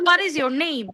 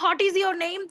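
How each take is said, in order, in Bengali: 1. প্রথম শব্দটি w সহ বলা হয়। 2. প্রথম শব্দটি w ছাড়া বলা হয়। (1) "আমরা বলবো হোয়াট ইজ ইওর নেম" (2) "অনেকে বলে না হট is your name, it sounds very bad"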